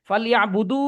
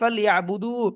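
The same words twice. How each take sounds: First: The final vowel is cut short. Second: The final vowel is held long. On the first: The speaker calls it wrong. "দু তো টান আছে আমি তো টান দিচ্ছি না" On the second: The speaker calls it right. "একালিফ টান দিলে কি হবে"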